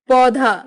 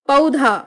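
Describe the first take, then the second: The two takes are said the same way.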